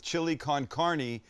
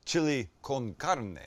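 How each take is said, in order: First: "con carne" as "kahn KAR-nee"; anglicised "con carne", ending in "nee"; mispronounced Spanish. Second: Slow "con carne" as "kohn KAR-neh"; exaggerated Spanish vowels and tapped r in "carne"; careful Spanish pronunciation. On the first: Real, not acted. Host reading out a viewer's recipe, mispronounced. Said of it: "my mispronunciation of chili con carne". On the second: Shown as a demonstration. Host apologising for mispronunciation, now carefully corrected. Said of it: "Is that better?".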